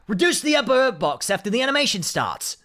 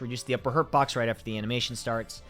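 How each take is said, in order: First: It is read in a put-on Axel voice. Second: It is read in the speaker's normal voice.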